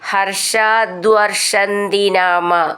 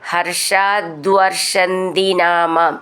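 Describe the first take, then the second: The two takes are said the same way.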